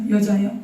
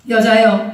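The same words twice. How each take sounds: First: Said in the usual way. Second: 여자요 said louder as a cue; emphatic call to repeat. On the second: Shown as a demonstration. Pastor calling the line for the congregation to repeat, louder. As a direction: say 여자요 loudly for the congregation to echo. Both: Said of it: "따라하세요".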